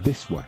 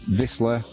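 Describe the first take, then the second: First: The name is said with a Polish-style pronunciation. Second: The name is said with an English-style pronunciation. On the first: The speaker calls it right. "It's Wisła" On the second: The speaker calls it wrong. "shouldn't say Wisla because that's not how it's pronounced"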